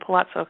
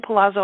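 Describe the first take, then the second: First: The double z is sounded as ts. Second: The double z is sounded as a plain z. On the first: "I say Palazzo because I live here. ... It sounds like a T Z in Italian" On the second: "you say Palazzo"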